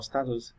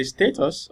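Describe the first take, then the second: First: "status" said STAT-us, short A; alternative pronunciation. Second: "status" said STAY-tus, long A; alternative pronunciation. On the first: Teacher offering viewers the other way to pronounce it, "status" as STAT-us. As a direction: say "status" with a first syllable like "stat". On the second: Teacher offering viewers one way to pronounce it, "status" as STAY-tus. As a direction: say "status" with a first syllable like "stay". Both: Shown as a demonstration. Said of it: "depending on how you want to pronounce it".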